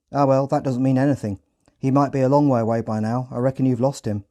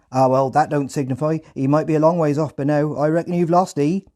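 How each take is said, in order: First: Said in the usual way. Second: High, loud Hampshire farmer voice; loud rural Hampshire accent. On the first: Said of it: "translated into British Standard English". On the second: Retold or imitated. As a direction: shrug it off like a Hampshire farmhand. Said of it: "in a thick Hampshire accent".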